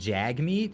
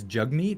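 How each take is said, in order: First: The first vowel sounds like the one in cat. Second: The first vowel sounds like the one in cup. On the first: The speaker calls it wrong. "apparently it's not it's not jag meat" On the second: The speaker calls it right. "It's jug meat. It's pronounced that"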